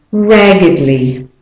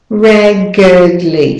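First: Said in the usual way. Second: "raggedly" drawn out as RAG-uhd-lee; slow schwa demonstration. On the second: Shown as a demonstration. Teacher showing the schwa vowel, slow "raggedly". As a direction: say "raggedly" slowly with a schwa in the middle. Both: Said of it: "the E is the schwa vowel".

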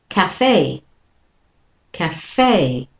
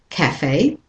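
First: "cafe" with second syllable stressed, falling; light "ca", long "FAY" in "cafe"; American stress on cafe. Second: "cafe" with first syllable stressed, rising at the end; British stress on cafe. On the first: Teacher models American for learners, second-syllable stress on "cafe". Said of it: "And with the American". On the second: Teacher models British and Australian for learners, first-syllable stress on "cafe". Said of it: "First one is stressed". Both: Shown as a demonstration.

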